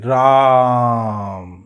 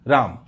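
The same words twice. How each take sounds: First: The vowel is drawn out to double length. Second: The long vowel is held for normal length. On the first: "इसको ऐसे बोलते हैं" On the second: "आप इसको कैसे पढ़ेंगे?"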